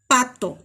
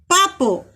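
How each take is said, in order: First: Said in the usual way. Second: "Papo", with a second P replacing the T of pato; assimilated sound. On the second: Shown as a demonstration. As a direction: demonstrate the speech error "Papo". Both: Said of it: "en lugar de decir".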